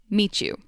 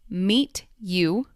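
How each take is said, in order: First: The T and Y sounds blend into ch. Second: The T and Y sounds are said separately.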